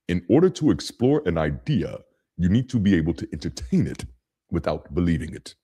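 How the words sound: It is said imitating Mufasa's voice.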